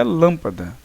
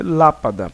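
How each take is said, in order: First: "lâmpada" with a closed, nasal first A; closed vowel sound. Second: "Lápada" with an open, oral first A; open vowel sound. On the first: Teacher showing accents don't change sound, closed A in "lâmpada". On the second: Teacher contrasting vowel sounds, open A in "Lápada". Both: Shown as a demonstration. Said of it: "já tinham um som fechado ou aberto".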